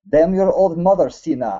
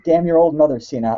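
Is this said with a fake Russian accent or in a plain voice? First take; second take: Russian accent; plain voice. First: It is said in a put-on Russian accent. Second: It is read in the speaker's ordinary accent.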